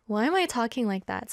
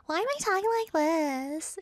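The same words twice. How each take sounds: First: Said in the usual way. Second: High, put-on questioning wail; mock whine. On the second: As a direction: whine it up high, playfully exaggerated. Acts out asking her mom.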